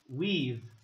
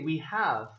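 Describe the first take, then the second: First: The verb is shortened onto the pronoun. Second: The verb 'have' is said as a full word. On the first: The speaker calls it right. "I say we've" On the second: The speaker calls it wrong. "I don't say we have"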